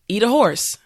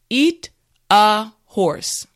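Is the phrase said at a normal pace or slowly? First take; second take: normal pace; slowly. First: The phrase is said at a normal pace. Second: The phrase is said slowly. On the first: "now let's say it at a normal pace" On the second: "repeat after me"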